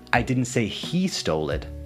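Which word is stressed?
he. The word 'he' carries the main stress. Someone other than that person did it. "you're not accusing that particular person"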